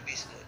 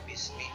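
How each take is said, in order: First: The word ends with an u vowel. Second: The word ends with an i vowel. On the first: The speaker calls it wrong. "kan tidak dibaca bismu" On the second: The speaker calls it right. "tetapi bismi"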